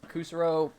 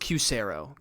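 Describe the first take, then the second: First: The name begins with a plain 'koo' sound. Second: The name begins with a 'kyoo' sound. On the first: The speaker calls it wrong. "I hope I'm saying that right" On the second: The speaker calls it right. "Pronounced like the letter Q"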